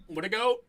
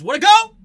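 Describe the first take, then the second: First: Said in the usual way. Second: Very loud, high mock-hype shout; exaggerated high holler of praise; hyped-up cheer. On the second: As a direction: yell it like an over-the-top fan. Hyping the quarterback's stat line.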